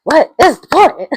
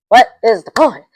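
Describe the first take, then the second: First: Higher and louder, near a yell; second, higher take; more exasperated. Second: Louder, fed-up question; first fed-up take; exasperated question. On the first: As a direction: push the question up in disbelief. Repeats the exasperated question. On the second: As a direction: ask it at the screen, annoyed. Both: Real, not acted.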